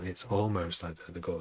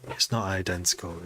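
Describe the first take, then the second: First: ALMOST lightly leaned on; "almost" stressed as the key difference. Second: NOT leaned on, before identical; "not" stressed to set it against almost. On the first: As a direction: point at the word "almost". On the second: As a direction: push the word "not" hard. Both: Shown as a demonstration. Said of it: "There's a big difference".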